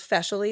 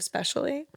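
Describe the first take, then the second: First: The word begins with an f sound. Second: The word begins with an sp sound.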